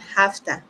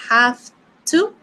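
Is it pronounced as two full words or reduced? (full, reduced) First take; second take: reduced; full. First: The words blend into one reduced word. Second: Both words are said fully and separately. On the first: The speaker calls it right. "that is the pronunciation, hafta" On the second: The speaker calls it wrong. "Instead of saying I have to"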